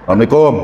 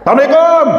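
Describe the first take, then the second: First: The greeting is said softly. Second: The greeting is said loudly.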